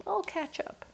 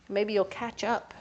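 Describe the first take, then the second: First: Much higher, softer playful echo of catch up. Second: Said in the usual way. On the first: Retold or imitated. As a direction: answer yourself in a chirpy little voice.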